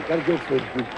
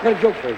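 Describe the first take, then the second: First: Quiet aside; softer repeat. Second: Said in the usual way. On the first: Real, not acted. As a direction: lower and softer, almost to self. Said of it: "repeat, softer lower".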